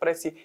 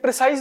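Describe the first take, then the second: First: The word ends with a 'see' sound. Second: The word ends with a 'size' sound. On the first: The speaker calls it right. "इसका नाम प्रेसी है" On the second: The speaker calls it wrong. "ये प्रिसाइज नहीं है, इसको कभी भी प्रिसाइज मत बोलना"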